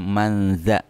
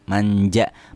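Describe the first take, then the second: First: The middle consonant is a z sound. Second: The middle consonant is a j sound. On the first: The speaker calls it right. "Yang benar adalah manza, huruf za ya, bukan huruf jim" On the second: The speaker calls it wrong. "bukan huruf jim"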